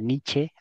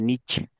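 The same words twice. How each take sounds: First: The name ends with an audible final vowel. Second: The name ends without any final vowel sound. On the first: This is the original German pronunciation. "así con la E al final, porque es en alemán" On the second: This is the English-style pronunciation. "es la pronunciación que se haría en inglés, porque en inglés no se pronuncia la E al final"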